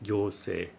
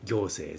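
First: The pitch stays flat, standard accent. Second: The pitch drops, Diet-style accent.

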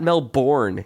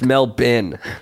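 First: It is said with an American pronunciation. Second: It is said with the local Australian pronunciation. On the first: The speaker calls it wrong. "Not Melbourne, you dumb American asshole" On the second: The speaker calls it right. "It's Melbourne"

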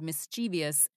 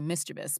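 First: The word does not sound like 'mischief' plus -ous. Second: The word sounds like 'mischief' plus -ous. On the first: The speaker calls it wrong. "I always said mischievous" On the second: The speaker calls it right. "it's actually mischievous because it's like mischief"

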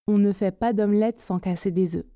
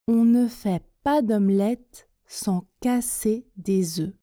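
First: The sentence is spoken at a medium pace. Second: The sentence is spoken slowly.

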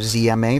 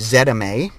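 First: It is said in an American way. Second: It is said in a non-American way.

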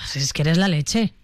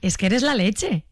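First: It sounds reproachful and negative. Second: It sounds admiring and positive.

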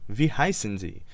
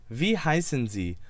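Both takes have the same delivery.

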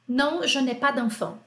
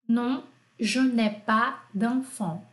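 First: It is said fast. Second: It is said slowly.

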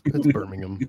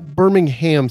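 First: The last syllable is reduced, not like ham. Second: The last syllable sounds like the word ham. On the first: The speaker calls it right. "but it's Birmingham" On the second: The speaker calls it wrong. "Birmingham sounds more delicious"

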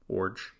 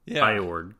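First: The name sounds like 'orange' without the n. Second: The name starts with a different vowel before 'org'. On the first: The speaker calls it right. "pronounced like orange with no N" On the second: The speaker calls it wrong. "I would have pronounced it Eorg or Iorg"

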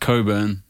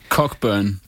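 First: The word is shortened, with some letters not said. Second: The word is said in full, as written. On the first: The speaker calls it right. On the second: The speaker calls it wrong.

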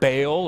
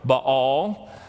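First: The word is said in a plain, ordinary way. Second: The word is said in a posh, affected way.

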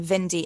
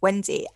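First: The name begins with a V sound. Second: The name begins with a W sound. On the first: It imitates a German speaker's pronunciation. The speaker calls it wrong. "she couldn't pronounce W's" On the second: It is the usual English pronunciation. The speaker calls it right. "instead of"

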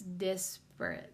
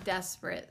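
First: The first syllable sounds like dis. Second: The first syllable sounds like des. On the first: The speaker calls it right. "It's dis, not des" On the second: The speaker calls it wrong. "But it's not desperate"

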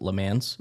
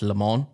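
First: The name sounds almost like English 'lemons'. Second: The name is said with a French-style vowel. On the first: The speaker calls it wrong. "He pronounced it Le Mans. ... Almost lemons" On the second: The speaker calls it right. "it was pronounced Le Mans"

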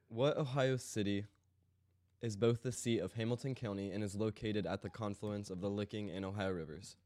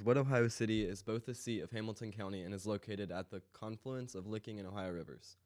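First: The question is read much more slowly. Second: The question is read very fast.

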